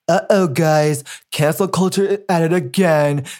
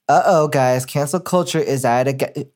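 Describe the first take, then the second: First: It is read in a put-on Chad voice. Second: It is read in her normal voice.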